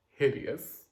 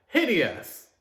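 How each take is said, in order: First: Said in the usual way. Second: Hideous! thrown out high and loud; emphatic repeat. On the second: Real, not acted. Repeating her verdict to viewers, high and emphatic. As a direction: punch the word Hideous! higher.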